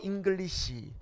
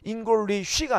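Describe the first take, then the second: First: The last syllable ends with an s sound. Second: The last syllable ends with a sh sound. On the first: The speaker calls it right. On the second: The speaker calls it wrong.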